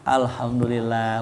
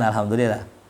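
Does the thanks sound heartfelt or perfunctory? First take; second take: heartfelt; perfunctory. First: It sounds warm and heartfelt. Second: It sounds flat and perfunctory. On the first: The thanks is sincere. The speaker calls it right. "bener dari hati" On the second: The thanks is only a formality. The speaker calls it wrong. "saya formalitas aja"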